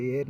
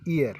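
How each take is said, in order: First: "ईयर" misread with the written h sounded first; wrong pronunciation. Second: "ईयर" opening straight on the vowel; silent h. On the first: Teacher warning students off a reading, h sounded before "ईयर". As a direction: say "ईयर" with an h in front. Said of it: "अब इसे ईयर नहीं पढ़ेंगे". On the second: Teacher giving students the correct reading, silent h in "ईयर". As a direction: say "ईयर" with no h sound. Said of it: "नहीं पढ़ेंगे". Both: Shown as a demonstration.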